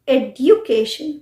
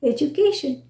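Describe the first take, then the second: First: The d and y sounds are said separately. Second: The d and y blend into a j sound. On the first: The speaker calls it wrong. "Not एड्यूकेशन" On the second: The speaker calls it right. "हम एक sound निकालते हैं ज"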